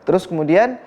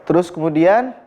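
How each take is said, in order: Both takes have the same delivery.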